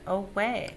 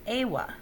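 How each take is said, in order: First: The stress is on the second syllable. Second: The stress is on the first syllable. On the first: The speaker calls it right. "The second syllable is accented" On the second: The speaker calls it wrong. "Otherwise, it would sound something like awa"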